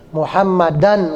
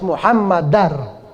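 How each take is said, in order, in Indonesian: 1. Kata ini berakhir dengan bunyi n yang jelas. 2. Bunyi n diganti dengan bunyi r. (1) "Muhammadan nggak" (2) "tapi harus Muhammadar"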